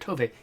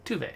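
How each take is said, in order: First: The first vowel sounds like 'oh'. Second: The first vowel sounds like 'oo'. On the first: The speaker calls it wrong. "I keep calling her Tove" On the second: The speaker calls it right. "I should be saying Tuve"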